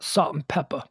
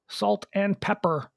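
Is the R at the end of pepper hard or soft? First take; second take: soft; hard. First: The final R in pepper is soft and weak. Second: The final R in pepper is strong and hard. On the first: The speaker calls it wrong. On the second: The speaker calls it right. "my hard R's in salt and pepper. That's right"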